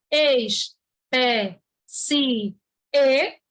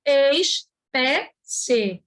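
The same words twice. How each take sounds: First: "ex, pé, si, e" with a gap after each syllable; "ex, pé, si, e" slowly separated, SI and E apart; split into four syllables. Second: "ex, pé, se" with a gap after each syllable; "ex, pé, se" in three slow, separate beats; split into three syllables. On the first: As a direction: sound out "ex, pé, si, e", final E on its own. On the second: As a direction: sound out "ex, pé, se", ending joined as one syllable. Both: Shown as a demonstration. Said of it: "Você pode separar essa palavra".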